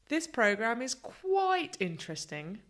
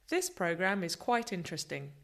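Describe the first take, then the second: First: The stress is strong on quite. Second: All words are stressed evenly.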